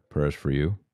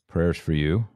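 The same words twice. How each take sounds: The two takes are said the same way.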